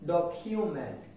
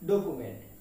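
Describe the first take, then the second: First: The 'k' is followed by a 'yoo' sound. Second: The 'k' is followed directly by 'oo'. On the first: The speaker calls it right. "কিন্তু এর উচ্চারণ হবে ডকিউমেন্ট" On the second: The speaker calls it wrong. "আমরা এটাকে উচ্চারণ করি ডকুমেন্ট"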